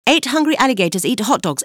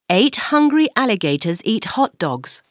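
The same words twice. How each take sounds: First: It is said very fast. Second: It is said faster.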